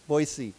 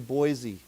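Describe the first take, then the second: First: The middle consonant is a hissing s sound. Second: The middle consonant is a buzzing z sound. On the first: This is how the local people say it. The speaker calls it right. "Boise with a s" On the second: This is how most Americans say it. The speaker calls it wrong. "I like most Americans, I call I say Boise"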